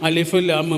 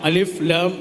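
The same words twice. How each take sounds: The two takes are said the same way.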